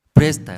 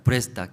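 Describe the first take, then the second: First: A sudden loud order, barked out; loud command. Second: Said in the usual way. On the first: Acted. Prophet ordering the widow to borrow jars, loud command. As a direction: command her to lend, full voice.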